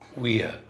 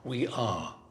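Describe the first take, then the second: First: It is said as one short contracted word. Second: It is said as two separate full words.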